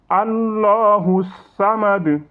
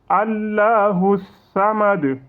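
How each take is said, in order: The two takes are said the same way.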